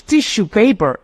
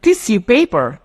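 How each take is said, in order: First: "tissue" with a sh sound, tish-oo; British tissue. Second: "Tissue" with an s sound, tis-yoo; American tissue. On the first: Teacher showing students British "tissue", with sh. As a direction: say "tissue paper" as tishoo paper. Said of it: "tissue paper is British". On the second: Teacher showing students her version of American "Tissue", with s. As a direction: say "Tissue paper" as tissoo paper. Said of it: "American, American English". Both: Shown as a demonstration.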